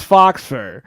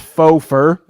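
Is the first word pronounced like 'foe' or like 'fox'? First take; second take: fox; foe. First: The first word sounds like 'fox', with final x. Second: The first word sounds like 'foe', no final x.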